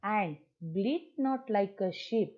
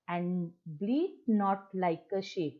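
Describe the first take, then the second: First: Slow, drawn-out recital again in a plain tone; poem recitation. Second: Slow, drawn-out recital; poem recitation. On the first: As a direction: stretch each word of the line slowly. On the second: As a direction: read the line slowly and evenly. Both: Shown as a demonstration. (धीमा कविता पाठ)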